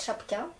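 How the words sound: It is said with a French pronunciation. "Vous dites chapka"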